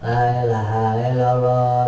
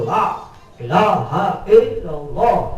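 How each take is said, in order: First: It is said weakly, without force. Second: It is said with a strong, forceful voice.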